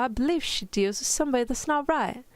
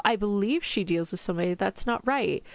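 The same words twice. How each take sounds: First: Higher, amateur British accent; mock-British protest; attempted British accent. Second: Said in the usual way. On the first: Shown as a demonstration. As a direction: read in a badly faked British voice. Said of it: "in your best British accent". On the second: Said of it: "Could you read a few lines".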